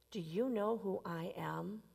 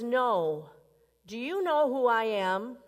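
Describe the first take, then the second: First: Soft whispered question. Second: Louder, offended challenge; as if everyone should know your name; indignant man. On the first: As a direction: whisper it as if a secret. Preacher repeats the punchline softly. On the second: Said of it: "The man says". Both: Acted.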